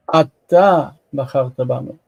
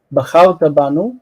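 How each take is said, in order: First: אתה set apart and emphasized before the verb; stress on אתה. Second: Said in the usual way. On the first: Shown as a demonstration. Teacher contrasting with the pronoun-less form, stress on אתה. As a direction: lean on אתה, then run on. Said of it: "It's emphatic". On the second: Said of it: "You could say".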